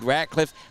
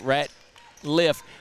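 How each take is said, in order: First: The name is said with a k sound. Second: The name is said without a k sound. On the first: The speaker calls it right. "when it's indeed Ratcliffe" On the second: The speaker calls it wrong. "it would be difficult to pronounce it Ratliff"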